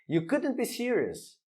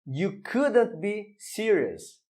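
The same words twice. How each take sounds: First: Said in the usual way. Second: You couldn't be serious read slowly, word by word; teacher's slow demonstration sentence; slow model reading. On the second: Shown as a demonstration. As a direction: spell it out slowly for the students. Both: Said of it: "Mais um exemplo".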